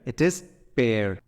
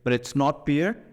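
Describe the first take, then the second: First: Pear is said with its standard pronunciation. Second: Pear is said as commonly misread. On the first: The speaker calls it right. "Learn the right pronunciation" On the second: The speaker calls it wrong. "A lot of people read it as pear"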